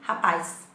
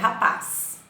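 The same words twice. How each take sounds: First: An 'ee' glide is added before the final sound. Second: The last syllable ends without any added glide. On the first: "eu puxo um i" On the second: "a pronúncia correta é rapaz"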